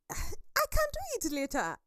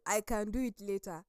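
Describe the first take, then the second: First: Very high-pitched dismissive put-off; breezy procrastination. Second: Said in the usual way. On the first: Acted. Speaker voicing herself putting off a task, high and dismissive. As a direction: brush the task away in a high voice.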